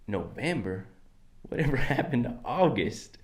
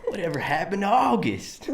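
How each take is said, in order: First: Softer, looser Southern twang with a laugh; relaxed cowboy accent. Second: Bad Southern cowboy accent, pitched up; awful cowboy accent. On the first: Pretend. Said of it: "Just gotta relax the mouth". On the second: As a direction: ham a clumsy Southern twang. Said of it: "Fucking awful".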